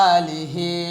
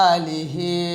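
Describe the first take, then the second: No difference in how they are said.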